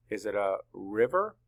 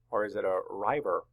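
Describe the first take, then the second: First: RIVER with short "i": RIV-er; short vowel. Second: RIVER mispronounced with long "i": RYE-ver; long vowel. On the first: Teacher asks where to break it, short-vowel RIVER. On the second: Teacher offers class the wrong option, long-vowel RIVER. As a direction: say RIVER to rhyme with "driver". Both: Shown as a demonstration. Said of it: "It makes a short vowel".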